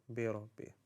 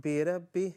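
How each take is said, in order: First: بربي with a heavy, rounded ra; بربي corrected, the ra rounded toward "ro"; full-mouth ra. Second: بربي with a thin, light ra; بربي without the full-mouth r. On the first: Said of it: "this is a full mouth letter". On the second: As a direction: say بربي wrongly, flattening the ra toward "ra" as in "rat". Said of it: "not بربي". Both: Shown as a demonstration.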